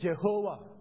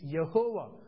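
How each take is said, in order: First: The name begins with a J sound. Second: The name begins with a Y sound. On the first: The speaker calls it wrong. "people say Jehovah" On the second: The speaker calls it right. "there is no J in Hebrew. It's Yehovah"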